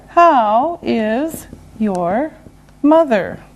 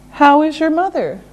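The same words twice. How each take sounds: First: Word by word; slow and deliberate. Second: Quick connected question; natural brisk pace. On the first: Teacher modelling a question about mother, slow and separated. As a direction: separate the words clearly and slowly. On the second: Teacher repeating the question at brisk natural pace. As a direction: run the words together conversationally. Same question at faster speed. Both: Shown as a demonstration.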